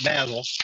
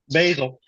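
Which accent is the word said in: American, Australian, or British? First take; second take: Australian; American. First: It is said with an Australian pronunciation. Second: It is said with an American pronunciation.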